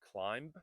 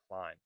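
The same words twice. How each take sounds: First: A final B sound is pronounced. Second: The final B is silent. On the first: The speaker calls it wrong. "It is not climb" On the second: The speaker calls it right. "Climb is a silent B"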